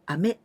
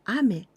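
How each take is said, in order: First: The pitch rises across the word. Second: The pitch falls across the word. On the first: It means candy. "ame goes up" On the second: It means rain. "going down"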